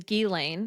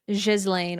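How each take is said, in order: First: Hard G start, ending rhymes with rain. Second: Soft zh start, ending rhymes with again. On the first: This is the common English version. "hard G with lane r- rhyming with rain" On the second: This is the traditional French version. "with a soft G like S in pleasure and len rhyming with again"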